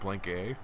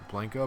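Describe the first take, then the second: First: The name is said as 'blank' plus letter A. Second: The name is said smoothly as one word. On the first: "but like Blank A. So now it just sounds like a diss" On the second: "not even like Blanca"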